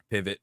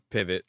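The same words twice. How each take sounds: The two takes are said the same way.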